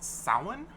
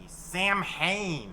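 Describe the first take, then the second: First: The name is not read as it is spelled. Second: The name is read as it is spelled. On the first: The speaker calls it right. "it's actually pronounced Samhain" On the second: The speaker calls it wrong. "that is a mispronunciation of the Celtic word"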